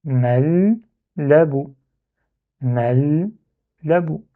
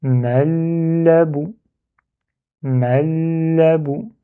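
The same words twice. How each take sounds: First: "Mal, labou" with a clear break after the held l; split syllables. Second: "Mal, labou" joined through a long held l; read in one go. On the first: Teacher decomposing the word, "Mal, labou" in two separated parts. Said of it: "on décompose en deux syllabes". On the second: Teacher removing the barrier between syllables, "Mal, labou" in one go. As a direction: run "Mal" into "labou" without any break. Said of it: "et les lire d'un coup". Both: Shown as a demonstration.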